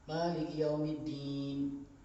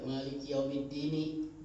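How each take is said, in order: First: The last word ends cut off, with no vowel. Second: The last word ends with a clear final vowel. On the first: The reciter stops at the end of the verse. "kalau mau berhenti ya berhenti" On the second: The reciter continues into the next verse. "Kalau mau hidup"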